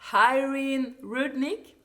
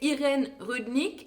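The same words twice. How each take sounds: First: The name is pronounced with English sounds. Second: The name is pronounced with French sounds.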